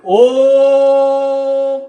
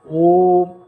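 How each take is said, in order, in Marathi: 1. हे जोरदार, उंच पट्टीत म्हटले आहे. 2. हे शांत, मध्यम पट्टीत म्हटले आहे. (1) "आणि भाषण असेल ओम, त्याला सतत मोठ्या उंच आवाजात बोलावं लागतं" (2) "व्याख्यान सायलेंट टोनमध्ये असतं, ते मध्यम टोन असतो"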